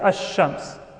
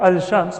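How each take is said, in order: First: The L is dropped and the sh is doubled. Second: The L sound is clearly heard before sh. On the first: The speaker calls it right. "we say ash-shams" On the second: The speaker calls it wrong. "We don't say al-shamsiyya or al-shams"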